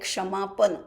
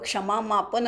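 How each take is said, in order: First: The syllable 'ma' is said once. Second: The syllable 'ma' is said twice. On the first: The speaker calls it right. "तो मापन नाही, क्षमापन" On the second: The speaker calls it wrong. "काही लोक क्षमामापन म्हणतात"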